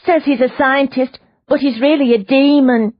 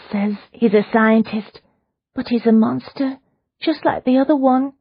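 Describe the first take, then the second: First: High, loud insistent woman's voice; agitated prisoner. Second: A mild hushed fearful telling, higher; half-hearted frightened hush; terrified whisper. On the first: Prisoner insists to Leona, high and urgent. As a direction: press the point that he is a demon. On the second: Prisoner confides her fear to Leona, mildly hushed. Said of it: "in a terrified whisper". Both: Acted.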